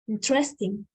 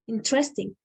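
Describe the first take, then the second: First: An unstressed syllable is dropped, giving three. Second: The same.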